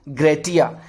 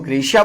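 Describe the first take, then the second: First: The middle consonant is a t sound. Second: The middle consonant is an sh sound. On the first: This is the Latin way of saying it. "वहां लैटिन में क्या बोलेंगे इसको हम?" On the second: This is the English way of saying it. "हमने इंग्लिश में इसको ग्रेशिया बोला है"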